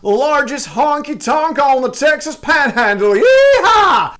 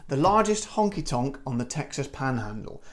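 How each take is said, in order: First: Loud, high, drawn-out Texan American accent. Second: Quiet, understated British accent. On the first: Host shows it's better American, hollered Texan accent. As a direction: holler it slowly in American, building to a whooping yeehaw. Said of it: "say it in an American accent". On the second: Host shows how ridiculous it sounds, plain British accent. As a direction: say it in a low-key British accent, trailing off. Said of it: "sounds ridiculous in a British accent". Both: Shown as a demonstration.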